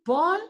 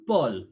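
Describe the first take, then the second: First: "Paul" rising as a question; questioning intonation. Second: "Paul" low, falling to a close; statement intonation. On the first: Teacher explains that Paul is a question, rising tone. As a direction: lift the pitch right up through "Paul". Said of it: "Paul is a question". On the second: Teacher shows the difference between the two, falling tone. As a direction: drop the pitch on "Paul" to make it a statement. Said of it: "the tone will". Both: Shown as a demonstration.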